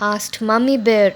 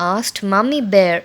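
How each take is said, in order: The two takes are said the same way.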